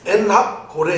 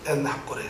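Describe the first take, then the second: First: "엔학고레" broken as 엔학, 고레; wrong word grouping. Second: Soft, low "엔학고레", parted as 엔 and 학고레; correct word grouping. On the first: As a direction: pause before 고레 in "엔학고레". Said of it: "이렇게 읽으면 안 되는". ("엔학고레"를 사자성어처럼 엔학/고레로 읽기) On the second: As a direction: quietly model "엔학고레" with 학고레 kept together. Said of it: "사자성어가 아니거든요". (낮고 작게 "엔학고레"를 엔/학고레로 읽기) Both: Shown as a demonstration.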